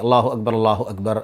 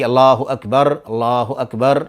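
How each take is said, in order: First: Fast, with the phrases run together continuously. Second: Slow, with clear pauses between the phrases. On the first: This is how the second call just before prayer is recited. "सुरात होनी चाहिए, जल्दी होनी चाहिए, तसलसल होना चाहिए" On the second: This is how the call to prayer is recited. "अलग अलग ठहर ठहर करके"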